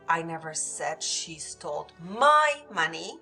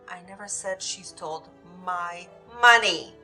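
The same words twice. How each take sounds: First: The word my carries the main stress. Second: The word money carries the main stress. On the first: It was someone else's money. "She might have stole someone else's money, but not mine" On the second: She took something other than money. "She might have taken something else, but not the money"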